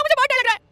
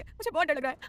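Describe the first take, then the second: First: Very high, very loud screamed words; terrified scream. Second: Higher, louder scared admission; frightened pleading. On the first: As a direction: scream it in total panic. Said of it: "सनम जोर से चिल्लाई". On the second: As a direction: say it pleading, pitch raised in fear. Heroine begs, afraid of lion. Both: A narrator's reading.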